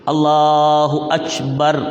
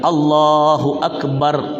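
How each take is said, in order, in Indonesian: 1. K dalam Akbar terdengar seperti ch. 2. K dalam Akbar adalah k biasa. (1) "Kap itu jadi cah" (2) "Kalau kita"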